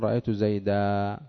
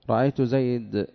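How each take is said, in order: First: The last word ends in a long a vowel. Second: The last word ends in a bare consonant. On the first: This is how most Arabs pause on the word. "والجمهور يقولون رأيت زيدا" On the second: "ربيعة يقولون رأيت زيد"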